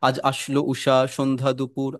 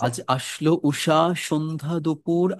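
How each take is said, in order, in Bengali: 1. এটা একঘেয়ে ও প্রাণহীনভাবে আবৃত্তি করা হচ্ছে। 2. এটা প্রাণবন্ত ও গমগমে ভঙ্গিতে আবৃত্তি করা হচ্ছে।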